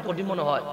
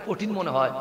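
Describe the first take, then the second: Both takes have the same delivery.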